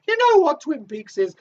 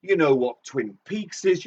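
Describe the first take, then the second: First: A much higher put-on voice. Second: Said in the usual way. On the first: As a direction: jump up into the silly high voice. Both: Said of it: "I don't know why I'm speaking like this".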